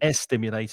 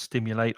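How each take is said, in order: First: An extra vowel sound comes before the s. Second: The word starts directly with the s sound. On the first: The speaker calls it wrong. "So it's not estimulate" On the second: The speaker calls it right. "it's just stimulate"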